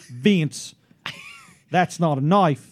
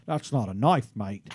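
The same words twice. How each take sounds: First: Slow, attempted Australian accent of a coworker; Ruth Brown. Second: Attempted Australian accent, trailing down low on the last word; Crocodile Dundee. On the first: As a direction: convert the film Australian into her Australian accent. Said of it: "now I gotta convert that". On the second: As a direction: put on a movie Australian accent. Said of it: "you gotta do that Crocodile Dundee stuff". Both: Shown as a demonstration.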